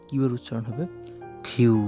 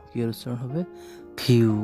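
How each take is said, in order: The two takes are said the same way.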